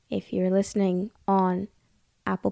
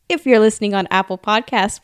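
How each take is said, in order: First: It is said in a somber tone. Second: It is said in a happy tone.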